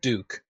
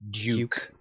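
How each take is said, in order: First: The word is said without a 'y' glide. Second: The word is said with a 'y' glide. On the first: "Not Duke" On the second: "There's a name for when you pronounce you that way"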